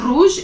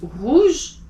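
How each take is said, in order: First: "rouge" with an English tongue-tip r; the wrong way, "rouge" with an American r. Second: "rouge" with a throaty French r; the right way, "rouge" with the r from the back of the throat. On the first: Teacher showing students the wrong "rouge". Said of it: "It's not rouge". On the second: Teacher showing students the correct "rouge". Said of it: "it's rouge". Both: Shown as a demonstration.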